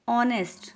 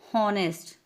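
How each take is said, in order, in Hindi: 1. यह सीधे स्वर की आवाज़ से शुरू होता है। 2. इसकी शुरुआत में साफ़ सुनाई देने वाली h की आवाज़ है। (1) "Here we are getting sound of O" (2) "silent means हमें एच की साउंड नहीं आ रही कि हावर, हॉनेस्ट. नो"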